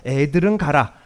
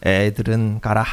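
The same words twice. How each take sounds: First: Said in the usual way. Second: Put-on 애들은 가라 said low and sing-song, the way adults shoo kids; familiar shooing intonation. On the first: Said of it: "이렇게 말 안 해요". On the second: Shown as a demonstration. Preacher showing the congregation the old shooing tone, low and sing-song. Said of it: "어떤 뉘앙스로, 억양으로 말합니까?".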